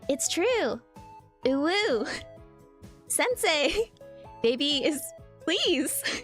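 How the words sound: It is read in a put-on imitating voice. "my Alias impression"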